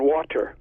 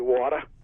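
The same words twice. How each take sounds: First: The ending is an er with the r sounded. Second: The ending is an ah with no r sound. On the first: "but you don't say it that way" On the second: "changing E Rs to an A"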